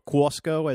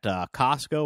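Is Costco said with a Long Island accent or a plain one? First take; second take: Long Island; plain. First: It is said in a Long Island accent. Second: It is said in a plain, neutral accent.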